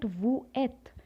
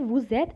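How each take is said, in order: First: The s of vous stays silent, no link. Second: The s of vous links as a z sound. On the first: The speaker calls it wrong. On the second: The speaker calls it right.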